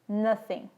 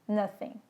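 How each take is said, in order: First: The middle sound is th, tongue against teeth. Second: The middle sound is th, tongue against teeth.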